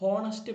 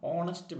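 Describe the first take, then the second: First: The word starts with an audible h sound. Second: The word starts with a vowel, no h. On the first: The speaker calls it wrong. "ഹോണസ്റ്റ് person അല്ല" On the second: The speaker calls it right. "അപ്പോഴും ഓ ശബ്ദമാണ്"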